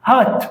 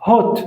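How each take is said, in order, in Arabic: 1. الصوت مفتوح، بالنطق الأمريكي. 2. الصوت مدور، بالنطق البريطاني. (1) "بالأمريكي الأو زي الفتحة بالعربي" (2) "بالبريطاني الأو ينطق زي الضمة"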